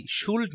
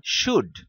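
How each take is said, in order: First: শুল্ড with the l sounded; spelling pronunciation. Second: Said in the usual way. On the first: Shown as a demonstration. Telling her cousin the wrong reading, শুল্ড with an l. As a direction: say শুল্ড letter by letter. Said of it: "শুল্ড না". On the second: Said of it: "শুল্ড না, শুড".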